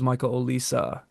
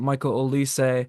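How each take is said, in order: First: The surname ends with an 'uh' sound. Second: The surname ends with an 'ay' sound. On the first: This is how the announcer kept saying it. The speaker calls it wrong. "instead it was Michael Olisa" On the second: This is the name's usual pronunciation. The speaker calls it right. "it wasn't Michael Olise"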